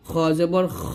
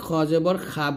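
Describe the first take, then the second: First: The final syllable ends in a shorter vowel. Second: The final syllable ends in a long open 'aa'. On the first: The speaker calls it right. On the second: The speaker calls it wrong.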